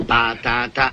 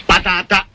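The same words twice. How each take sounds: First: Muffled by a potato in mouth. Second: Said in the usual way. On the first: Shown as a demonstration. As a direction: talk around a potato. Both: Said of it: "camuffiamo la voce".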